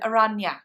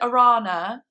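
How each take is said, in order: First: The middle consonant is an ny sound. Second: The middle consonant is a plain n sound. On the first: The speaker calls it right. "I actually should have said Aranya" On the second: The speaker calls it wrong. "when I said Arana"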